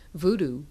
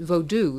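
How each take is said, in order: First: The word is said the common American way. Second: The word is said in a non-American way. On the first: It calls up the Hollywood image of dolls and pins. "it's called voodoo here" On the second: Most Americans would not recognize the word. "if you pronounce it that way to the average American, they're probably not going to w- know what you're talking about"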